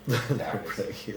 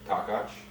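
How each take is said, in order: First: The name is said with an Americanized pronunciation. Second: The name is said with a Hungarian pronunciation. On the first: This is how most people outside the family say it. "What are the regular people supposed to say?" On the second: This is how the family and Hungarians say it. "What do your people say?"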